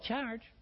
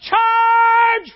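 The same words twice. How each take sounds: First: It is said weakly, without authority. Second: It is shouted with commanding authority.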